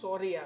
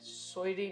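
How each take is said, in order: First: It is said plainly as 'sorry'. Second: It is said with an added 'y' glide, 'soyri'. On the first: The speaker calls it right. "સોરી આવે" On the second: The speaker calls it wrong. "સોયરી ના"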